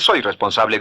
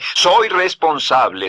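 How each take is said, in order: First: It is said flatly, without feeling. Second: It is said with strong feeling.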